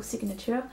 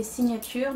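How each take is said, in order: First: Signature said in English with a strong French accent; self-mocking French-accented English signature. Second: Signatures said the French way, sin-ya-tur; French pronunciation. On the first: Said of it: "en anglais, avec mon accent qui va bien". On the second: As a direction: read signatures as a plain French word, proudly clumsy. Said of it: "donc en français bien dégueulasse". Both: Shown as a demonstration.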